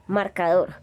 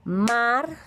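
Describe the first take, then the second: First: Said in the usual way. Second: Marcador split into its syllable beats. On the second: Shown as a demonstration. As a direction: say Marcador beat by beat. (Marcador golpe a golpe, sílaba por sílaba) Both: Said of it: "Golpes de voz".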